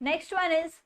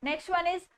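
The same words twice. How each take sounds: Both takes have the same delivery.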